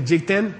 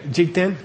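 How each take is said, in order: First: "Jikten" said slowly and clearly, syllable by syllable, for the class to repeat; Tibetan word said clearly. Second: "Jikten" said again, clearly, ending with a rise; Tibetan word repeated. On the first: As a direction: model "Jikten" clearly, ending with a slight rise. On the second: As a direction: model "Jikten" once more for the class. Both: Shown as a demonstration. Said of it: "Say Jikten".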